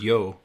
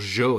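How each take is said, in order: First: The word begins with a 'y' sound. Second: The word begins with a 'sh' sound. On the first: This is the usual way of saying it. "instead of yo" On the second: This is the Argentine way of saying it. "Argentina, they show it"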